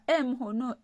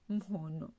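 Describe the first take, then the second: First: A short vowel sound comes before the m. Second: The word starts directly on the m sound. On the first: The speaker calls it wrong. "On ne dit pas eh mhono ... comme les Français" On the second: The speaker calls it right. "Non, ... mhono"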